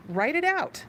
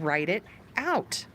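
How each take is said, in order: First: "Write it out" pitched higher, pushed harder; emphatic repeat. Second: Said in the usual way. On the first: Shown as a demonstration. Therapist urging viewers to write it out, emphatic higher repeat.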